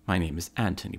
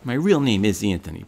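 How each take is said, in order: First: Name said in a put-on posh British English accent; fake British accent. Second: Name said in his own Brooklyn New York accent, stress on real. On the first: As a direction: introduce yourself like a refined Englishman. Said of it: "his phony accent". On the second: Real, not acted. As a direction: drop the act and talk like a Brooklyn guy. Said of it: "a Tony with this accent".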